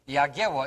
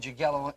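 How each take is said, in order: First: The name is said with Polish sounds. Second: The name is said with English sounds. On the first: "the way you pronounce it in Polish" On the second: "in the English language"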